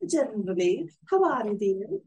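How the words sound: It is said in a muddled put-on Scottish accent.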